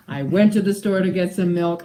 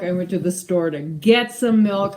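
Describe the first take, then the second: First: "went" punched hardest in the sentence; stress on WENT. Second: "get" pushed out as the peak word; stress on GET. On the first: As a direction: hit "went", leave the rest light. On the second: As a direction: make "get" the word that matters. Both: Shown as a demonstration. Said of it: "how emphasis on certain words changes".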